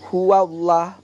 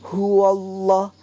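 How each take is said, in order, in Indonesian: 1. Huruf l pada Allah diucapkan tipis dan ringan. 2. Huruf l pada Allah diucapkan tebal dan berat. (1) "bukan huwallah" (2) "tapi huwallah ada tebal"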